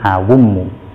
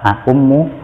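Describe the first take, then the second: First: The second consonant is a w sound. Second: The second consonant is a glottal stop. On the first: "boleh diiklal menjadi awummu" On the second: "boleh tetap a'ummu"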